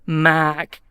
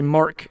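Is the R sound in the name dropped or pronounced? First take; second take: dropped; pronounced. First: The name is said without an R sound. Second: The name is said with an R sound. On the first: This is how the name is said in New Zealand. "Here I have to say Mac and sound like a sheep" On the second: This is how the name is said in the United States. "guys can say Mark"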